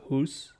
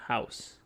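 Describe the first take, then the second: First: "hoose" for house, with an oo vowel; imitated odd pronunciation. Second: Said in the usual way. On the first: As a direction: say house as "hoose", rhyming with goose. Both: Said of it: "he pronunciated house as hoose".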